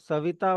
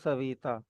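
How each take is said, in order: First: The vowel after 'v' is short. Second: The vowel after 'v' is drawn out long.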